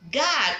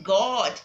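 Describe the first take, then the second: First: God said gad, with an open short a; correct short vowel God. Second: God said gawd, with a long rounded aw; wrong long vowel God. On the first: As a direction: say God like gad, mouth wide. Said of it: "most people call it God". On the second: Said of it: "You don't say God". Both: Shown as a demonstration.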